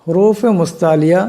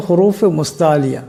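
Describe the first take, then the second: No difference in how they are said.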